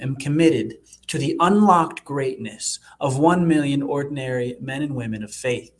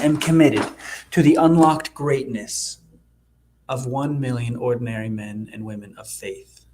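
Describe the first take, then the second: First: The voice sounds firm and full of conviction. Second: The voice sounds flat, lacking conviction. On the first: The speaker calls it right. "I have to discover that conviction inside of me" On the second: The speaker calls it wrong. "I don't hear the conviction in my voice"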